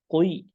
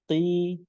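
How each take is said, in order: First: The letter is said thick and heavy. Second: The letter is said thin and light. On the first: The speaker calls it wrong. "tidak qoi" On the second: The speaker calls it right. "maka pengucapannya tipis langsung"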